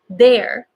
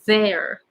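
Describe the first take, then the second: First: It begins with a d, stopping the air. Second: It begins with th, air flowing continuously. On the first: The speaker calls it wrong. "if you are pronouncing it with D, that means the air is stopping" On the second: The speaker calls it right. "But T H, air does not stop"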